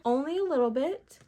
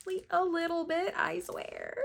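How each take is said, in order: First: Raised pitch, rising at the end; coy, high-lilting admission; playful admission. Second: Tiny, very high voice; high, playful little protest; squeaky insistence. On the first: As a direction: lift it up, half questioning. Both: Pretend. Admits disappointment, repeats it higher.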